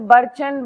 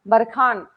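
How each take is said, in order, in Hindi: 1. बीच का व्यंजन 'ch' ध्वनि है। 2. बीच का व्यंजन 'kh' ध्वनि है। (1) "बरचन बारचन नहीं बोलना है इसको" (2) "this is pronounced as बरखान"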